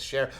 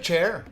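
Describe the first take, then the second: First: The word begins with a sh sound. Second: The word begins with a ch sound. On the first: The speaker calls it right. "Mom, it's share" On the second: The speaker calls it wrong. "the C H's"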